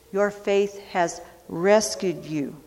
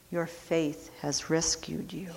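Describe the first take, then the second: First: Said in the usual way. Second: Much softer, tender repeat; soft echo. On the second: Acted. Jesus reassuring the healed man, soft tender echo. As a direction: let it fall to a murmur.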